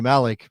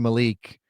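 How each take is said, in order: First: The name is pronounced the German way. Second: The name is pronounced the American way. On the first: This is how people in Germany say it. "in Germany they say Malik" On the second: This is how people in the US say it. "here they say Malik"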